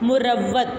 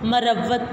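First: The first vowel is a short 'u'. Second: The first vowel is a short 'a'. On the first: The speaker calls it right. "मीम के ऊपर पेश के साथ जो है वो हम इसको पढ़ेंगे" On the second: The speaker calls it wrong. "मीम के ऊपर ज़बर के साथ पढ़ते हैं"

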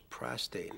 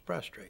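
First: The word has no r after the t. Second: The word has an r after the t. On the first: The speaker calls it right. "I believe it's prostate" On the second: The speaker calls it wrong. "One of the most common mispronunciations of a word is prostrate"

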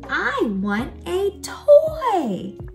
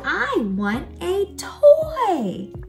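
First: It is said with lively excitement. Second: It is said with lively excitement.

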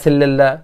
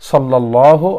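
First: The first vowel sounds like 'e'. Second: The first vowel sounds like 'a'. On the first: The speaker calls it wrong. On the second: The speaker calls it right.

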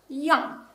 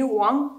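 First: The syllable begins with a 'y' sound. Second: The syllable begins with a 'w' sound. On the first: The speaker calls it right. "а я" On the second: The speaker calls it wrong. "не уан"

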